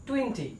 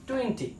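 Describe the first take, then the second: The two takes are said the same way.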